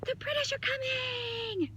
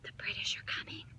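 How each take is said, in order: First: It is yelled loudly. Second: It is said calmly at normal volume.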